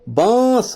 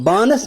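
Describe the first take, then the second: First: The n is hidden as a nasal sound. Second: The n is pronounced as a full consonant. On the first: The speaker calls it right. "वहां नून को छुपाते हैं" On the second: The speaker calls it wrong. "बानस मत होता है"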